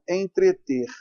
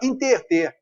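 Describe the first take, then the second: First: The word starts with an 'en' sound. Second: The word starts with an 'in' sound. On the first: This is the standard form of the verb. "que é o verbo entreter" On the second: This is how people say it in casual speech. "na linguagem coloquial, a gente vê a pessoa falando assim"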